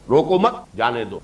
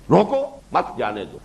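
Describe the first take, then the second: First: روکو مت joined, a break, then جانے دو; روکو مت as one unit, then pause; pause after مت. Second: روکو alone, a break, then مت جانے دو; روکو, then a clear pause before the rest; pause after روکو. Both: Shown as a demonstration. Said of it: "کہاں آپ نے وقفہ ڈالا".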